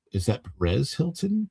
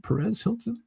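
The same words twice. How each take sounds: First: Said in the usual way. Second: Higher, softer surprised question; surprised echo. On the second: Real, not acted. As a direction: echo the name in disbelief. Spotting a viewer in chat.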